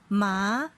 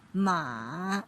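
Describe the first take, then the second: First: The pitch rises from middle to high. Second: The pitch dips low then rises again. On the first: "they have rising tone" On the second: "the third tone with the contour of the check shape"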